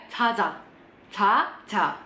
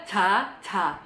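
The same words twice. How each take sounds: First: "caca" said nearly "cha-ja"; C first, J second. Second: "caca" with both syllables equally between C and J; wrong, identical blends. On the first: Teacher reading "ayo tidur" correctly, C then J. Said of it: "Yang depan C-nya rada lebih jelas". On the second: Teacher showing another wrong reading, identical syllables. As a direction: space "caca" out slowly, both syllables alike. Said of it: "dan bukan juga caca". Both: Shown as a demonstration.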